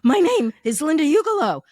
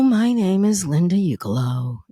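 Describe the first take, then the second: First: It is said in a panicked tone. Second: It is said in a bored tone. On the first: "Or you can be a little panicked" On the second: "so a little bored"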